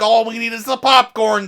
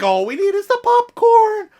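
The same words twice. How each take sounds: First: The voice stays level and falls at the end. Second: The voice goes up at the end. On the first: The speaker calls it right. "Would be a much better way to say that" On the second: The speaker calls it wrong. "Why would you go up there?"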